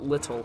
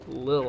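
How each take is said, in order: First: The word is said with two full syllables. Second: The word is clipped into one short syllable. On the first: The speaker calls it wrong. "It's not little" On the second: The speaker calls it right. "it's lil hop step"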